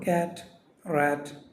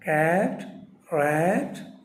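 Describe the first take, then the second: First: The vowel is said plainly without distortion. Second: The vowel is exaggerated with a distorted mouth. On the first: The speaker calls it right. "അങ്ങനെ പറഞ്ഞാൽ മതി" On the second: The speaker calls it wrong. "ഈ എ എന്ന് പറയുമ്പോൾ ഇതൊരു ഭാഗത്തേക്ക് കോടണം"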